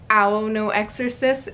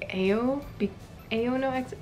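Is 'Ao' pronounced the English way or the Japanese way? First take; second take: Japanese; English. First: Ao is read with Japanese vowel sounds. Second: Ao is read with English vowel sounds. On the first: The speaker calls it right. "the Japanese name of my favorite" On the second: The speaker calls it wrong. "which I know it's wrong, but it's just like the English coming back in"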